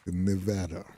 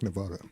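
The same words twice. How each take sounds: First: The stressed vowel sounds like the vowel in 'at'. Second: The stressed vowel does not sound like 'at'. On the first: "Pronounce A like you would an at" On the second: "I like Nevada. It's easier to say"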